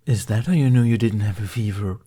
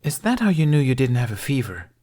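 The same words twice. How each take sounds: First: "how" carries the weight; stress on how. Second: "that" hit higher and louder; stress on that. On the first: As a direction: push the word "how". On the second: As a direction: lean on the word "that". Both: Acted. Question repeated, stress moved.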